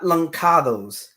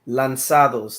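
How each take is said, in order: First: The middle consonant is a k sound. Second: The middle consonant is an s sound. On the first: The speaker calls it wrong. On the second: The speaker calls it right. "there's a cedilla there"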